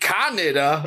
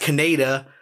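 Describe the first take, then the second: First: The name sounds like the country Canada. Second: The name does not sound like Canada. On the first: This is the dubbed version of the name. "I'm like the country" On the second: This is the familiar version of the name. "I know it as Kaneda"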